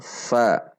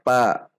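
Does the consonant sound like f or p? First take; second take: f; p. First: The consonant is an f sound. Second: The consonant is a p sound. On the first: The speaker calls it right. "namun fa" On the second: The speaker calls it wrong. "tidak dibaca pa"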